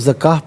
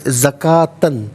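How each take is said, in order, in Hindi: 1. शब्द का अंत 'h' की आवाज़ से होता है। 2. शब्द का अंत 'tan' की आवाज़ से होता है।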